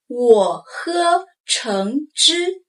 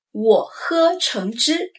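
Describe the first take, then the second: First: 我喝橙汁 slowly, each tone clear; slow model sentence. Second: Said in the usual way. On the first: Shown as a demonstration. Teacher modeling 我喝橙汁 to repeat, slow and clear. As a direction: spell out 我喝橙汁 slowly for learners. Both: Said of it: "Repeat after me".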